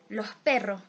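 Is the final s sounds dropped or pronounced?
dropped. The final s sounds are dropped. "people of coast region say ... they tend uh, to delete the final S"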